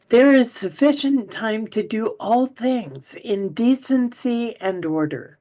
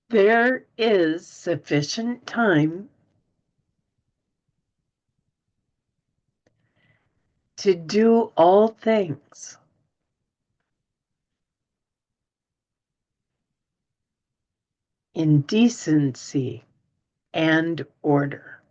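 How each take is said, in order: First: It is read at a normal pace. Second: It is read slowly.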